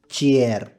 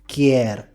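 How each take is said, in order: First: The word begins with a ch sound. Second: The word begins with a k sound. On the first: The other dialect says it this way. "Words with ka or cha" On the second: One dialect says it this way. "Words with ka or cha"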